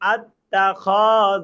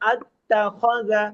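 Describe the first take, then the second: First: The vowel is stretched out long. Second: The vowel is kept short, not stretched. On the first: The speaker calls it wrong. "এই যে টান হয়ে গেল" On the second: The speaker calls it right. "দেখেন কোনটা টান হয় নাই।"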